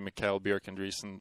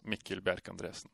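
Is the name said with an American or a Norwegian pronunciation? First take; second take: American; Norwegian. First: The name is said with an American pronunciation. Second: The name is said with a Norwegian pronunciation. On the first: "So I kind of Americanize it" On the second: "the Norwegian pronunciation is"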